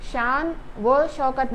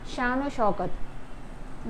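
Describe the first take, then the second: First: The middle word is a separate 'va'. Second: The middle word is an 'o' linked on. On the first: The speaker calls it wrong. "शान व शौकत नहीं" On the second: The speaker calls it right. "वाव का आवाज़ ओ आता है"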